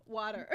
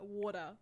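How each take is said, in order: First: Put-on WATER said again in an American accent; Americanized WATER for puzzled listeners; Americanized pronunciation. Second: Said in the usual way. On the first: Repeats word for uncomprehending Americans.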